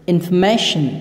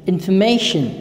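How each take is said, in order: The two takes are said the same way.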